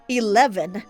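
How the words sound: The word is said in an American accent. The elevator's voice system expects this form. "English ac- or American accent eleven"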